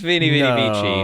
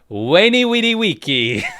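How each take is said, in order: First: Each word begins with a V sound. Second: Each word begins with a W sound. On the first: This is the later church pronunciation. The speaker calls it wrong. "wasn't pronounced" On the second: This is how classical Romans spoke. The speaker calls it right.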